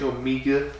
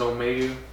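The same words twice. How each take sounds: First: It is said with a British pronunciation. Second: It is said with an American pronunciation. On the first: The speaker calls it wrong. "when they say Omega" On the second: The speaker calls it right. "instead of Omega"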